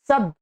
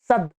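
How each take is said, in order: First: The word ends on a bare d sound. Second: The word ends on a bare d sound.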